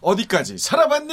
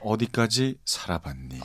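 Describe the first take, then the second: First: It is said in a bright, lively morning tone. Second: It is said in a calm, low late-night tone.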